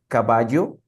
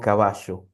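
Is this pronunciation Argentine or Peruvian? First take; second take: Peruvian; Argentine. First: It is said with a Peruvian Spanish pronunciation. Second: It is said with an Argentine Spanish pronunciation. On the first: "como se dice en Perú, Colombia" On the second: "como soy argentino, digo caballo"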